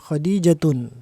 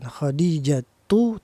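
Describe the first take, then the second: First: The word ends with an added n sound. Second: The word ends on a plain u vowel. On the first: The speaker calls it wrong. "tidak boleh dibaca Khadijatun" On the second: The speaker calls it right.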